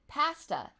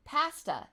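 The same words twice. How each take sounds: First: It is said with a Canadian pronunciation. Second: The same.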